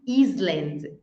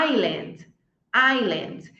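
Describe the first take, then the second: First: Island wrongly as IZ-lund; mistaken sounded S. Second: Island as EYE-lund, no s; silent S. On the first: Teacher showing what not to say, island with sounded S. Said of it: "ele é mudo. Nós não falamos". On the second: Teacher modelling for students, island with silent S. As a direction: drop the s from island. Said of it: "ele é mudo". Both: Shown as a demonstration.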